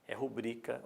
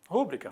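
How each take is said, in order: First: The stress is on the second syllable. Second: The stress is on the first syllable. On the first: The speaker calls it right. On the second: The speaker calls it wrong. "Escutamos muito rúbrica"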